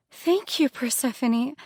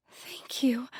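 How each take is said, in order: First: Higher, louder burst of thanks; a much higher, louder thank you; excited thanks. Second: A hushed, overwhelmed thank you; whispered thanks. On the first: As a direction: burst out with gratitude. Grateful, then burst out. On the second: Grateful, first whispered. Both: Acted.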